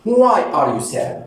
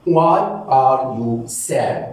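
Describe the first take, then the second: First: Said in the usual way. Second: Very slow, each word separated; teacher spelling out a phrase slowly. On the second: Shown as a demonstration. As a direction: break the question into single slow words. Repeated word by word for learners.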